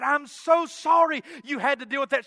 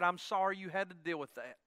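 First: Imitated wife, raised and emphatic sympathy; effusive apology. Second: Imitated wife, low and soft; tender apology. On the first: Wife apologizes to husband for his trouble, effusive. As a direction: apologize with emphasis, higher and louder. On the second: Wife consoles husband after a kiss, soft and low. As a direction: murmur the sympathy quietly, well down in pitch.

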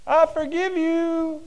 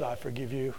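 First: High, slow, ringing forgiveness; merciful master forgiving his debtor; drawn-out mercy. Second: Said in the usual way. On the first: Acted. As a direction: stretch it out with grace. Master forgiving debt, said twice.

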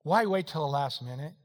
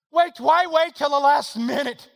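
First: Said in the usual way. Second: Loud, high, slow pulpit question; raised voice, drawn out and insistent; preached shout. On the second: Acted. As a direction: throw the question out forcefully to the congregation. Same question preached at full force.

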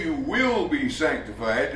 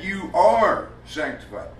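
First: Slow, with "will" drawn out and emphasized; stress on "will". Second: Slow, emphatic "are", falling away afterwards; stress on "are". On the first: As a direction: lean hard on "will" as the rejected word. Contrasts future with present tense. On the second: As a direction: punch "are" as the correcting word. Corrects future to present tense. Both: Shown as a demonstration.

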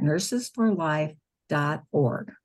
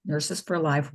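First: Spelling out the web address slowly; slow dictation. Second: Said in the usual way. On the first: Real, not acted. Telling listeners the web address, slow careful dictation. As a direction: say nurses for life dot org slowly and carefully, like dictating. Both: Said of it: "one word".

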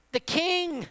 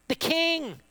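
First: "The king" again even higher, falling hard; emphatic repeat. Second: "The king" lifted high and dropped; emphatic "king". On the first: Preacher hammering home to the congregation: "The king" soaring then falling. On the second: Preacher stressing to the congregation: "The king" high then falling. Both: Shown as a demonstration.

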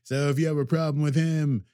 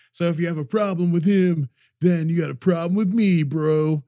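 First: Said in the usual way. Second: Louder, higher brash warrior threat; tough Elnor voice. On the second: Retold or imitated. Elnor warns crowd he defends Picard, brash. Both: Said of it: "I don't wanna do this voice".

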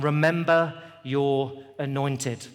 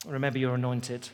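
First: Remember your anointed drawn out slowly; slow and weighty. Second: Said in the usual way. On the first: Shown as a demonstration.

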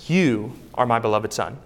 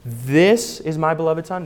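First: YOU held out, then a brief pause; lingering emphasis on YOU; stress on YOU. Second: THIS drawn out with a rising tone; lingering emphasis on THIS; stress on THIS. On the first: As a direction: set YOU apart as the correction. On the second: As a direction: stretch and lift THIS, as if testing a misquote. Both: Shown as a demonstration. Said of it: "No, it says".

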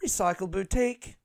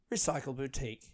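First: Recycle Boutique rising on BOUTIQUE; train announcer. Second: Recycle Boutique soft and falling; train announcer. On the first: Comedian mimicking the train stop announcement, rising announcer. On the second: Comedian mimicking the train stop announcement, falling announcer. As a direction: announce Recycle Boutique as arrived, dropping at the end. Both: Acted. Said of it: "it's like on the train".

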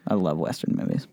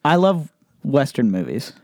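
First: Lower, soft repeat to himself; quiet. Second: Said in the usual way. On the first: Real, not acted. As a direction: murmur it again, fondly. Repeats it softly.

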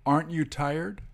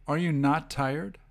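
First: Said in the usual way. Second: "not" said as the key word; emphasis on NOT. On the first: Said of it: "you can once again split it". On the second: Shown as a demonstration. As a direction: stress "not" in the question. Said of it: "The emphasis is on not".

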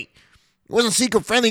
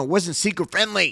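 First: "seeker friendly" much higher and slower, mocking stress; emphatic repeat. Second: Said in the usual way. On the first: Shown as a demonstration. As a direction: stretch "It wasn't seeker friendly" high and slow.

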